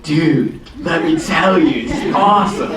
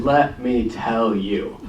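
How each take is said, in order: First: Put-on thick West Coast dude accent; drawn-out West Coast drawl, rising higher at the end; Reed. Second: Slow, deliberate lead-in; measured retelling. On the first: Imitating his buddy telling a story, thick West Coast accent. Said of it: "thick West Coast accent". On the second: Retold or imitated. Reed answering his old schoolmates, slow and deliberate. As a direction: draw out each word unhurriedly. Reed's answer, retold before accent version.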